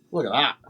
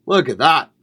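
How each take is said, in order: First: Said in the usual way. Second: Excited. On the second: Real, not acted. Showing off his plate of food.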